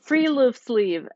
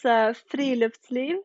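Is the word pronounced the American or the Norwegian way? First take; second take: American; Norwegian. First: It has an Americanized English pronunciation. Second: It has a native Norwegian pronunciation.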